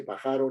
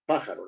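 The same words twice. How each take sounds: First: Pájaro mispronounced as pa-JA-ro, middle syllable stressed; wrong stress on middle syllable. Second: Pájaro stressed PÁ-ja-ro; stress on first syllable. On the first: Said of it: "Nadie dice pájaro ni pajarón". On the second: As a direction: put the weight on PÁ in pájaro. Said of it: "El acento está en pájaro". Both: Shown as a demonstration.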